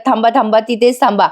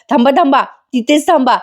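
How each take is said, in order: First: Said in the usual way. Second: Stop cry through laughter. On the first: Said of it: "पण कल्पनाताई म्हणतात". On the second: Acted. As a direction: hold them back while stifling a laugh. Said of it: "sorry हं प्रेक्षकांनो, मला जरा हसू आलं". (हसू आवरत जोरात थांबा म्हणणे)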